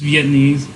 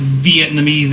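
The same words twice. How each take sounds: First: "Vietnamese" run together in fewer syllables; corrected pronunciation. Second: "Vietnamese" with an extra syllable, "viet-nuh-meez"; mispronunciation. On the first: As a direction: say "Vietnamese" as "veet-neez". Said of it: "It's Vietnamese". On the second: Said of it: "It's not pronounced Vietnamese either". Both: Shown as a demonstration.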